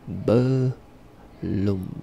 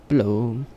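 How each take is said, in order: First: Both syllables are pronounced with the first vowel. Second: The first vowel is dropped, giving one syllable.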